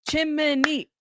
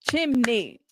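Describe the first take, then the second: First: "Chimney" in three drawn-out beats, chim-uh-nee; "Chimney" split up as chim-uh-nee; syllables clapped out. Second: "chimney" in two beats, chim-nee; "chimney" split cleanly as chim-nee; syllables clapped out. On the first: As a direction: sound out "Chimney" slowly with an extra middle syllable. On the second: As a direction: sound out "chimney" with no middle vowel. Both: Shown as a demonstration. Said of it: "clap your syllables out".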